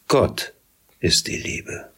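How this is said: The stress falls on the word Gott. God shows what love really is. The speaker calls it right. "Der Ton liegt auf Gott"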